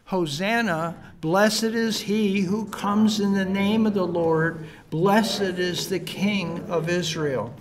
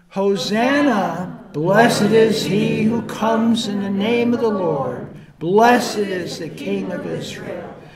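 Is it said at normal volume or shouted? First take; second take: normal volume; shouted. First: It is said at normal speaking volume. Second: It is shouted loudly with excitement.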